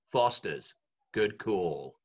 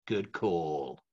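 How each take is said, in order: First: Low, deep ad-tagline voice; ad voiceover. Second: Low, deep ad-tagline read; ad voiceover. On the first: Recreating his old Foster's ad tagline, deep and low. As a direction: deliver it like the beer advert. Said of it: "can you be the voice of Foster's". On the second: Telling friends about the Foster's ad, low tagline voice. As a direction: land the tagline low and easy. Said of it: "the voice of Foster's". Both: Retold or imitated.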